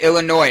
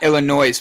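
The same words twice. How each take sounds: First: The word ends without an s sound. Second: The word ends with a noise-like s sound. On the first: The speaker calls it right. "in Illinois they say Illinois" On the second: The speaker calls it wrong. "not Illinois, because there's no noise in Illinois"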